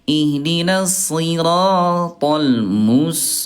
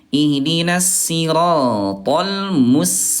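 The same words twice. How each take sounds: First: Both s sounds are heavy and emphatic. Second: Both s sounds are light and thin. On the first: "yang kedua tadi dua-duanya sad" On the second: "yang ke satu itu dua-duanya sin ya"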